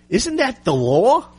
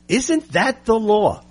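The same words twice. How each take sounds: First: Slow, ending with "law" rising high; rising question. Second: Slow, "Isn't" punched, falling at the end; stress on ISN'T. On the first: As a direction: ask "Isn't that the law?" slowly, pitch climbing on "law". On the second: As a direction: hit "Isn't" hard and let "law" drop. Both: Shown as a demonstration.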